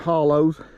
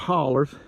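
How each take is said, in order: First: The word ends with an 'oh' sound. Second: The word ends with an 'er' sound. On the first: The speaker calls it wrong. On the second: The speaker calls it right.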